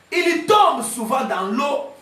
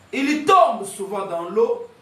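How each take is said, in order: The two takes are said the same way.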